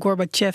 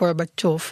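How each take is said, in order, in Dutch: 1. De laatste klinker is een gewone e-klank. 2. De laatste klinker is een yo-klank. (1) "dat ze Gorbachev zeggen" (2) "het is een yo"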